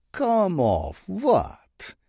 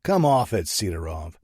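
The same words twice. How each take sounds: First: Put-on very slow, much higher sly Russian-accented drawl. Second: Snapping. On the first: Bratva boss feigning innocence to Saint, sly Russian drawl. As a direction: play dumb, sly and teasing. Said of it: "Sidorov's voice is sly". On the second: Acted. Saint snapping at the Russian boss on the phone. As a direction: bite off the words impatiently. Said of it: "I snap".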